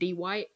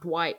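First: The name is split into two syllables. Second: The name is said as one syllable. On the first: "You're pronouncing it with two syllables" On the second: "Not Dwight"

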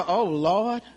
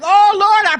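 First: It is said in a distressed, worried tone. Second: It is said in a joyful, praising tone. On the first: The speaker is worried and afraid. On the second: The speaker is praising God.

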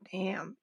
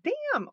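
First: The word is said at a low pitch. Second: The word is said at a high pitch. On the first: "or low damn" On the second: "It's high damn, like damn"

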